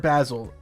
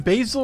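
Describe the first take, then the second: First: The first vowel sounds like 'bah'. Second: The first vowel sounds like 'bay'. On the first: "B A H" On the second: "B A Y"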